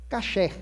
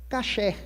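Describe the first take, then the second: The two takes are said the same way.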